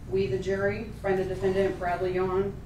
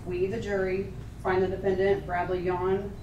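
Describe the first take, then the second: No difference in how they are said.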